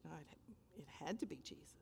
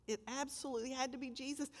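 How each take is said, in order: First: Breathless whispered certainty; hushed, reverent whisper; awed whisper. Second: Said in the usual way. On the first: Real, not acted. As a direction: whisper it in wonder. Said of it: "awed whisper after story". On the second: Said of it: "repeated in soft voice".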